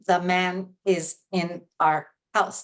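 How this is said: Each word is said separately, staccato. The speaker calls it wrong. "that's staccato"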